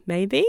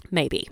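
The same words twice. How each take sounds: First: Light rising maybe; questioning maybe. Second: Low falling wry maybe; doubtful maybe. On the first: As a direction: toss it up as a question. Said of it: "carry on with the training". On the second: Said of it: "that's what's gonna work". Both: Shown as a demonstration.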